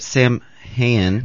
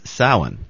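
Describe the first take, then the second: First: The first syllable does not sound like 'sow'. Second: The first syllable sounds like 'sow', a female pig. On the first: The speaker calls it wrong. "I wanted to say it wrong first" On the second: The speaker calls it right. "Sow as a female pig in with a natural vowel"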